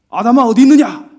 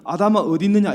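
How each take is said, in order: First: Loud, high angry call of Adam's name; angry shout. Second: Said in the usual way. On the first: Shown as a demonstration. Preacher mimics an angry God calling Adam, angry shout. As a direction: bellow it like an enraged God. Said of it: "우리는 어떻게 읽냐면". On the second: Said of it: "근데 성경에는".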